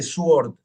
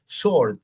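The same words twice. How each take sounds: First: "sword" with an audible W, like "su-ord"; "sword" said as spelt, s-w-ord; wrong, W sounded. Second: "sword" said "sord", no W; "sword" as s-ord; silent W. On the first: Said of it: "No se dice sword". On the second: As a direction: drop the W from "sword". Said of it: "es sword". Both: Shown as a demonstration.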